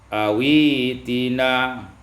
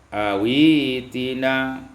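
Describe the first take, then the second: The two takes are said the same way.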